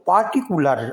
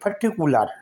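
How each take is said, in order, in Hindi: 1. पहले अक्षर में लंबा 'aa' स्वर है। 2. पहले अक्षर में छोटा, हल्का स्वर है। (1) "इसको पार्टिकुलर अगर पढ़ेंगे तो गलत हो जाएगा" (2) "ये साइलेंट होगा और हम इसको पढ़ेंगे पर्टिकुलर"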